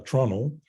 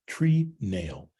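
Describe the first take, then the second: First: The word is reduced, sounding like trunnel. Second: The word is said as two full syllables.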